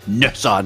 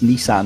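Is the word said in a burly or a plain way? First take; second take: burly; plain. First: The name is said in a broad, burly way. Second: The name is said in a lighter, plainer way.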